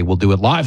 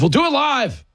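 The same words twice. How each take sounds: First: Said in the usual way. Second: High-pitched exclamation, falling at the end; hammed-up cry, pitched way up; mock outburst. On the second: Host promising Tuesday's live show, mock outburst.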